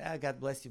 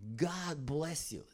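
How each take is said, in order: First: It is said casually and offhandedly. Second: It is said with power and weight.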